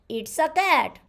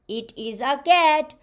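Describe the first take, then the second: First: It is is shortened to one syllable, it's. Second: It is is said as two full words. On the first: The speaker calls it right. "How we'll speak with it is with contraction" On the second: The speaker calls it wrong.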